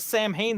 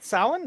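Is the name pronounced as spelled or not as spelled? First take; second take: as spelled; not as spelled. First: The name is pronounced just as it is spelled. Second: The name is not pronounced as it is spelled. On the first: The speaker calls it wrong. "the people that pronounce it as Sam Hain that drive me up the wall" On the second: The speaker calls it right. "It's not hard at all"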